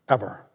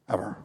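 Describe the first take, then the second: First: Said in the usual way. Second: "Ever." repeated much softer, nearly breathed; hushed echo. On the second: Real, not acted. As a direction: drop "Ever." to a quiet echo. Emphatic repeated single word.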